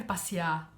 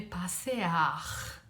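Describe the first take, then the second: First: Passear said as pasiá, no final r; spoken form. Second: Passear said slowly as pa-se-ar with a final r; written form. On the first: Teacher showing the spoken Rio form of passear. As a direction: passear clipped to pasiá as people really say it. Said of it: "Você não escreve passear". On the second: Teacher showing how passear is written. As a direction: passear spelled out carefully, every letter sounded. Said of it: "você escreve passear". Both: Shown as a demonstration.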